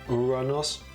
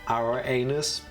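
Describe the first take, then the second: First: The name is pronounced like Uranos. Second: The name is pronounced like Irenaeus. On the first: The speaker calls it right. "but Uranos" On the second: The speaker calls it wrong. "I have a feeling it's not pronounced Irenaeus"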